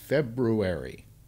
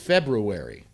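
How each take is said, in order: First: The word is said fully, as it is written. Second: The word is said with a sound dropped. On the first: The speaker calls it right. "that's how it's written" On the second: The speaker calls it wrong. "I hear all these people on television saying"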